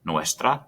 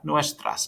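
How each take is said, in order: First: Said in the usual way. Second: Nuestras with a high lift to mark the plural s; plural ending stressed. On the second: Shown as a demonstration. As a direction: pitch nuestras up to show plural. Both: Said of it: "depending on how many mochilas".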